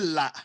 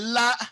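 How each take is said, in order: First: The syllable is said on a low tone. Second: The syllable is said on a mid tone. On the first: "avec le ton bas, c'était quoi? C'était là" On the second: "avec le ton moyen, c'est là"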